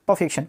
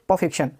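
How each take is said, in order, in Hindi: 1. R की आवाज़ silent रहती है। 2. R की आवाज़ साइलेंट रहती है।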